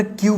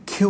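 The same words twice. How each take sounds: First: "কিউ" with a plain k, no puff; unaspirated k. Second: "কিউ" with a puffed kh onset; aspirated k. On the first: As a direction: start "কিউ" on a dry ক. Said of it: "কিউ বলবো না". ("কিউ" শুরুতে সাদা ক) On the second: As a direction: say "কিউ" as khiu. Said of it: "কিউ বলবো". ("কিউ" শুরুতে খ উচ্চারণ) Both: Shown as a demonstration.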